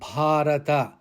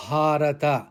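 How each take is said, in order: First: A vowel in the word is held long. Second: The same.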